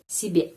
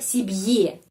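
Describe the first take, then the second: First: The final vowel is said as plain e. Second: The final vowel is said as ye. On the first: The speaker calls it right. "pengucapannya E" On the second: The speaker calls it wrong. "Tidak bisa sibye"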